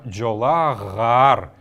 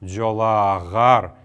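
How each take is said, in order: First: A g sound is inserted between the vowels. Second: The same.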